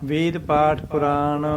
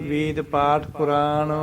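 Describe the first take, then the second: Both takes have the same delivery.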